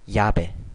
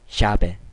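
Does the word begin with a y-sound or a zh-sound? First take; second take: y-sound; zh-sound. First: The first consonant is a soft y-sound. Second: The first consonant is a zh-like sound. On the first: "우리말에 이처럼 발음이 되지만" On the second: "하지만 중남미에서는"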